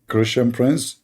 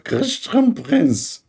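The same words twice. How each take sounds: First: Said in the usual way. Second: Very high and slow; drawn-out squeaky name. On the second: Retold or imitated. Asking the audience to judge his squeaky imitation. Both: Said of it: "which one is a nicer voice".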